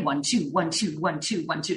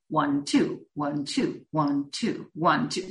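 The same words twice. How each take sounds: First: The counting is at a quick, sprinting pace. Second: The counting is at a steady, slower pace.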